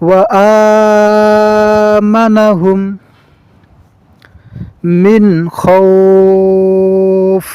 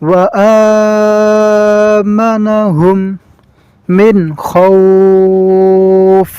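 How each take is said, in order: Both takes have the same delivery.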